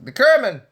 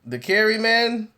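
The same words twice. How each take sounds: First: The phrase is said very fast and run together. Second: The phrase is said at a slow, careful pace. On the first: "they say it all real fast" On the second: "Instead of saying the"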